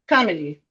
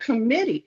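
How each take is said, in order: First: The stress is on the first syllable. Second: The stress is on the second syllable. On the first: It sounds like a different word. The speaker calls it wrong. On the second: It is heard as the intended word. The speaker calls it right.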